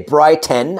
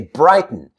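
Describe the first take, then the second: First: The vowel between T and N is full. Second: The vowel between T and N is reduced. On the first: The speaker calls it wrong. "I don't say brighten" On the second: The speaker calls it right. "I say brighten"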